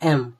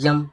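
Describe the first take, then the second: First: The letter name begins with a plain vowel. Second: The letter name begins with a y sound. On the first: The speaker calls it right. "हम लोग इसको जब पढ़ते हैं तो एम" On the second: The speaker calls it wrong. "कोई कोई बोलता है यम"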